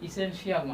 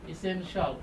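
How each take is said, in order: First: The ending is said as two syllables, 'shi-al'. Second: The ending is said as one syllable, 'shal'. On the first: The speaker calls it wrong. "ইসেনশিয়াল না" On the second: The speaker calls it right. "শিয়াল না বলে আমরা কি বলবো শল"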